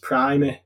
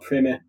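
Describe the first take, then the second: First: The first vowel is long, like in 'prime'. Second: The first vowel is short, not like 'prime'. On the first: The speaker calls it right. "it's pronounced Primer" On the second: The speaker calls it wrong. "not Primer"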